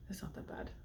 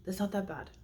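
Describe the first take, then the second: First: Whispered much softer, to herself; surprised soft whisper. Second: Said in the usual way. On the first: Real, not acted. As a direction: half-whisper it to herself after tasting.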